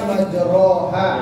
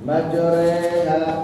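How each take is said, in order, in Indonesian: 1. Vokal setelah r adalah o biasa. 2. Vokal setelah r adalah e bulat. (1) "Harusnya kan majroha" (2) "Bukan merubah menjadi re, tapi terdengar re"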